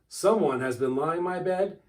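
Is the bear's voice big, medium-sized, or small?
small. It is said in a little wee bear's voice.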